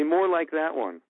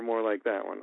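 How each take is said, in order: First: Choosing a take. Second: Said in the usual way. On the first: Shown as a demonstration. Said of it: "them to say".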